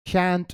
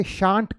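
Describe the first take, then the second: First: Shan't said with a flat short a, like SHANT as in ant; shan't drawn out slowly, the short a of cat; second pronunciation of shan't. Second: Shan't said with a long broad a, like SHAHNT; shan't stretched out slowly, SHAHNT with an open ah; first pronunciation of shan't. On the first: Teacher slowly shows students the other way to say shan't. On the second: Teacher slowly shows students the first way to say shan't. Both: Shown as a demonstration. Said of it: "इसकी दो pronunciation होती है".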